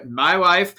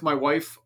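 First: Drawn-out, louder joke voice; catchphrase voice. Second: Said in the usual way. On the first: Acted. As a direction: stretch it out as a running-gag catchphrase. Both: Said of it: "'cause I can't not do it".

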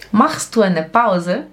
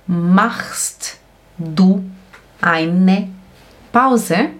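First: Said in the usual way. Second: Slow, with a clear break between words. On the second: Shown as a demonstration. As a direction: dictate it slowly, pausing after each word. Professora dita palavra por palavra. (palavra por palavra, bem devagar)

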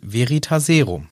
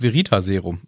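First: Narrator's stress on Veritaserum, as quoted; Rufus Beck. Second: Veritaserum stressed on TA; veri-TA-serum, weight on the third syllable. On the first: Retold or imitated. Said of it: "und er sagt". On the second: Shown as a demonstration. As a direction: hit the TA in Veritaserum. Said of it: "warum ich die Betonung auf der".

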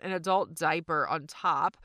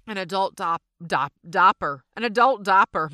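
First: Said in the usual way. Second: "an adult dopper", diaper said as "dopper" in a Southern accent, louder. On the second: Real, not acted. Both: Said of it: "My Southern accent just really came out".

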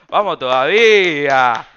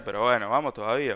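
First: Loud, slow victory shout; drawn-out shout of joy at his first kiss; triumphant cheer. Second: Said in the usual way. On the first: Real, not acted. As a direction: cheer it like a goal.

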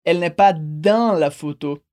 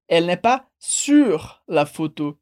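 First: "dans" set apart and drawn out, slow and lower; contrast on DANS. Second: "sur" held long and set apart, slow and lower; contrast on SUR. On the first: Teacher showing what one cannot say in French, stressing "dans". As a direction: say "dans" long and separate within the phrase. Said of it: "em francês a gente não pode dizer". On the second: Teacher correcting a common preposition error, stressing "sur". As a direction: stretch "sur" slowly as the correct word. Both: Shown as a demonstration.

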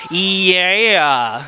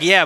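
First: "yeah" stretched slowly into three syllables, local accent. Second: Said in the usual way. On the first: Shown as a demonstration. Speaker teasing campers' accent, "yeah" stretched to three syllables. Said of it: "There's, like, three syllables in that word". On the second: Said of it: "three syllables in that word".

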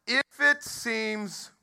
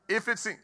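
First: Slow, high, stretched reading of "If it seems"; "If it seems" dragged slowly for emphasis; drawn-out reading. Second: Said in the usual way. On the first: Shown as a demonstration. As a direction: draw out "If it seems" word by word, pitched up. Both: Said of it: "Now watch this".

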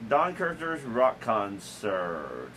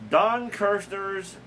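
First: Slow and drawn out, like a TV announcer; slow announcer read. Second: Drawn-out announcer. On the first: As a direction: stretch every word like an old TV intro. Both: Pretend.

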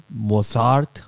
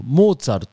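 First: Mozart as "mo-SAART", stretched second syllable; English-style pronunciation. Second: Mozart stretched as "Mōtsaruto", long o and final to; Japanese pronunciation. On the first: Co-host guessing the English version, English-style Mozart. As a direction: say Mozart with a plain s and long final a. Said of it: "en inglés, eh, dicen como". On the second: Co-host offering another foreign name, Japanese pronunciation of Mozart. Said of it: "Pero en inglés, eh, dicen como". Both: Shown as a demonstration.

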